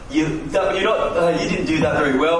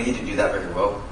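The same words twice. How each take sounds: First: The tone is cold and critical. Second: The tone is warm and friendly. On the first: The criticism comes across as destructive. The speaker calls it wrong. "tone has a lot to do with criticism being constructive or destructive" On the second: The criticism comes across as constructive. The speaker calls it right. "Hear the difference"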